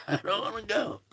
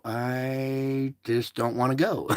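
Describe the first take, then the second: First: High, soft, playful mock whine. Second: Said in the usual way. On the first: Host teases viewers he won't leave, in a high mock whine. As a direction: pout it like a kid who won't leave.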